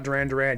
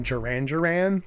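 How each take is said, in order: First: Said in the usual way. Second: "Duran Duran" with each D softened to a J sound; English gentleman's pronunciation. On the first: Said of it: "that's how it's supposed to be said". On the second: Retold or imitated. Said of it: "a gentleman who lives in England".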